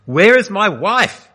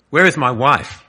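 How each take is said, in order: First: Much higher, louder, slow terrified scream. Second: Raised, choking plea for his wife; a strangled, louder cry from a man lost in darkness; choked cry. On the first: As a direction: scream the question into the void. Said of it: "he screamed". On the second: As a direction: voice catching as he calls out. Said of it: "he choked". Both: A narrator's reading.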